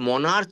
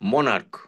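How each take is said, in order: First: The word ends with a 'ch' sound. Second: The word ends with a 'k' sound. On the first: The speaker calls it wrong. "সি মনার্চ নয়" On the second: The speaker calls it right. "এটা উচ্চারণটা কে"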